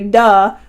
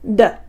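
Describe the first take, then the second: First: The consonant is followed by an added uh vowel. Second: The consonant is short and crisp with no vowel. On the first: The speaker calls it wrong. "we wouldn't say duh" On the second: The speaker calls it right. "we would say duh"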